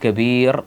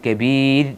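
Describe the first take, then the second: First: The r is pronounced heavy and full. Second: The r is pronounced thin and light. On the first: The speaker calls it wrong. "കബീർ എന്നല്ല" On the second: The speaker calls it right. "അത് നേർപ്പിച്ച് കബീർ എന്നാണ് ഓതേണ്ടത്"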